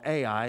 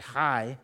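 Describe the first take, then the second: First: The name is said the common English way. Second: The name is said the Hebrew way. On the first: "I've heard it all my life called AI" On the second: "In Hebrew, it's actually Hi"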